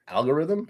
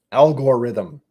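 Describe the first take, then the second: First: "Algorithm?" with a light "guh" middle, higher and rising; alternative pronunciation. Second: "Algorithm" with a heavy "gore" middle, louder; habitual pronunciation slipping out. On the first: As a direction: try "Algorithm?" with the middle vowel reduced, as a question. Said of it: "Should I say it like that". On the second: Host failing to say it differently, loud "Algorithm" with a "gore" middle. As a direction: punch out "Algorithm" as "al-gore-rithm". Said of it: "I can't not say it like that". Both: Shown as a demonstration.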